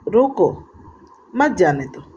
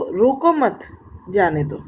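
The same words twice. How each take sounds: First: There is a pause after रोको. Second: There is a pause after मत.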